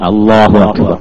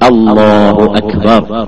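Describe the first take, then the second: First: The opening glottal stop is weak and unpressed. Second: The opening glottal stop is strong and pressed. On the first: The speaker calls it wrong. "വേണ്ടമാതിരി ഉച്ച അമർത്താതെ ഉച്ചരിക്കാൻ എങ്ങനെ ഉണ്ടാവുക?" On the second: The speaker calls it right. "അമർത്തിയിട്ടാകുമ്പോ ആ ആ അപ്പൊ ആ അങ്ങേ അറ്റത്ത് തന്നെ ആവണം"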